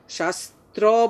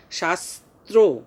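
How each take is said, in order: First: শাস্ত্র ending in an open aw, shas-traw; wrong pronunciation. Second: শাস্ত্র slowly as shas-tro, round final o; correct pronunciation. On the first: Teacher shows pupils the mistake, wrong open ending. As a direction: say শাস্ত্র with an unrounded final vowel. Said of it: "বললে কিন্তু ভুল হবে". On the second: Teacher corrects the mistake, slow round o ending. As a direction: round the lips on the end of শাস্ত্র. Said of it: "ওকারের মতো উচ্চারণ করতে হবে". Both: Shown as a demonstration.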